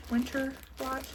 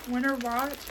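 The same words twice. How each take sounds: First: Country accent. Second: Said in the usual way. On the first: Shown as a demonstration. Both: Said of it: "country accent".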